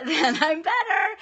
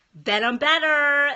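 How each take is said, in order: First: High, slow laughing repeat; a real laugh through tears. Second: Loud relief. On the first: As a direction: laugh it off while crying. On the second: After crying in the bathroom. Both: Real, not acted.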